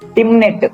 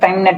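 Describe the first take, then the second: First: The first syllable has a short 'i' vowel. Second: The first syllable has a long 'ai' vowel. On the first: The speaker calls it wrong. "టిమ్ అని కాదు" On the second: The speaker calls it right. "టైమ్ నెట్ అని కూడా పిలవచ్చు"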